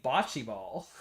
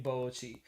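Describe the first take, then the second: First: "bocce" slowly as "BAH-chee"; imitated British pronunciation. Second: "bocce" slowly as "BOH-chee"; American pronunciation. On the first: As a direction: mimic "bocce" with open ah vowel. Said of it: "Will is saying". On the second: Shown as a demonstration. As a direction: draw out the oh in "bocce". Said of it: "I'm saying bocce".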